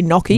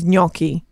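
First: Gnocchi said "nocky" with plain n; dum-dum mispronunciation. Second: Gnocchi with a "ny" glide, NYOK-ee; preferred Italian pronunciation. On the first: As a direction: say gnocchi as English NOK-ee. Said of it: "sound like more of a dum-dum". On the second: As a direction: say gnocchi as "nyocky". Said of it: "I appreciate it if someone says". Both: Shown as a demonstration.

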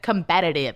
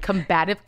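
First: "combative" in four syllables, com-BAT-a-tive; mispronounced combative. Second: "combative" in three syllables, com-BAT-ive; correct combative. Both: Shown as a demonstration. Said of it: "It just has a better ring".

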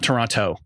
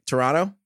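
First: Toronto said the standard American way, all three syllables; the wrong American Toronto, toe-RON-toe. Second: Toronto? said the New York way, t dropped, like Tronno. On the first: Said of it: "but not Toronto". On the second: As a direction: say Toronto with a clipped middle, no second t. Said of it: "my New York accent for once is right". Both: Shown as a demonstration.

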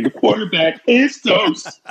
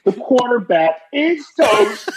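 First: Mock scream. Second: Laughing shout. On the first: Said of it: "you gotta scream". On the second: Retold or imitated. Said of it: "I laughingly shouted".

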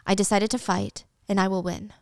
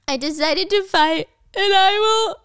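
First: Said in the usual way. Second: Gasping, higher and louder, losing breath mid-line; mock panic, pushing the words out between gasps; panicked gasping retake of the vow; hyperventilating. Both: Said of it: "she's, like, hyperventilating".

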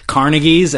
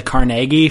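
First: "Carnegies" stressed on the first syllable; CAR-negie pronunciation. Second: "Carnegie" stressed on a long middle "nay"; car-NAY-gie pronunciation. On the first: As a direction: say "Carnegies" as CAR-nuh-geez. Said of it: "they refer to the Carnegies as". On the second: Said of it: "as the Carnegie Foundation". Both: Shown as a demonstration.

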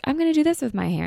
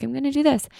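First: Excited hair plan. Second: Excited new plan. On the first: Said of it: "every episode, I'm like". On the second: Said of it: "the next time I'm like". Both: Retold or imitated.

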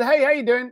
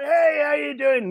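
First: Said in the usual way. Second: High, drawn-out New York greeting; New York guy. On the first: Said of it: "So I took the call, said". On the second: Retold or imitated. Caller greets [name] on the phone, New York guy. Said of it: "New York guy".

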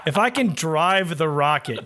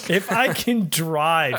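First: "drive the rocket" said slowly and mockingly. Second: Slow "If I can drive" stretching the word drive; mocking "drive". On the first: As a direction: lean on "drive" as a tease. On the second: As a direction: drag out "drive" to mock it. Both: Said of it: "he called it drive".

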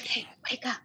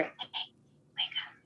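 First: Quiet. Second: Unvoiced eerie whisper; ghostly whispered wake-up call; faint whisper. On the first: Retold or imitated. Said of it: "it was so quiet". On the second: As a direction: breathe it barely audible, like a voice in the dark. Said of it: "really faintly, you hear".

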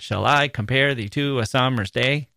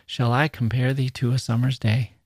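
First: "Shall I compare thee to a summer's day" with every second syllable thumped; over-stress I, -PARE, TO, SUM-, DAY in "Shall I compare thee to a summer's day"; singsong iambic reading. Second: "Shall I compare thee to a summer's day" in a natural, gentle questioning flow; humble question. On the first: Teacher showing how not to read it, mechanical beat on "Shall I compare thee to a summer's day". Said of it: "don't want to read it like that".

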